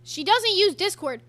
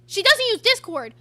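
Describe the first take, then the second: First: Slower, a bit higher, checking the words; puzzled repeat. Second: Much louder, higher, outraged disbelief; incredulous louder repeat. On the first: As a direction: say it back slowly in disbelief. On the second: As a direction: throw it back loud, can't believe it. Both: Real, not acted. Repeating what she was told.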